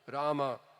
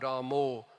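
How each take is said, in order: First: The name ends with an 'ah' vowel. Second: The name ends with an 'oh' vowel. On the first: The speaker calls it right. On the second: The speaker calls it wrong. "Not Ramo"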